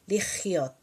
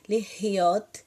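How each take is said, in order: First: The middle consonant is a harsh, scratchy throat sound. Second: The middle consonant is a soft breath from the throat. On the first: It means to live. "vai usar a parte mais gutural e vai arranhar" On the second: It means to be. "é aspirado, liriot é um sopro na garganta"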